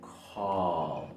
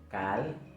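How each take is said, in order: First: The vowel is a long, open back 'aw'. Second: The vowel is a short, central Spanish 'a'. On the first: The speaker calls it right. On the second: The speaker calls it wrong.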